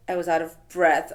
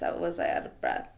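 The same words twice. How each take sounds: First: Said in the usual way. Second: A retold gasp for air, voice dropped much lower; mock breathless. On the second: Telling the shop owner, mildly acting out breathlessness. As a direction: act out being winded, mildly.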